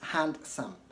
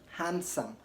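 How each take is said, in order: First: The d sound is pronounced. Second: The d sound is left out. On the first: The speaker calls it wrong. "not handsome" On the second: The speaker calls it right. "ignore the pronunciation of the D in handsome and say handsome"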